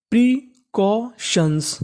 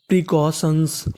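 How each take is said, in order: First: precautions drawn out very slowly, syllable by syllable; very slow sounding out. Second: Said in the usual way. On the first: Shown as a demonstration. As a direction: spell out precautions slowly as a teacher. (Precautions बहुत धीरे, अक्षर-अक्षर) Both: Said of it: "तो पूरी meaning बन गई".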